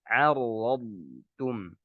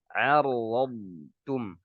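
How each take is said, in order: Both takes have the same delivery.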